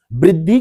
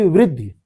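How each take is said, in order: First: वृद्धि said with an opening B, "briddhi"; B instead of V. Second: वृद्धि said with an opening V, "vriddhi"; V, not B. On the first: Teacher asking class va or ba, वृद्धि said as "briddhi". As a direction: start वृद्धि on a B sound. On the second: Teacher asking class va or ba, वृद्धि said as "vriddhi". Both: Shown as a demonstration. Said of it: "वा की बा".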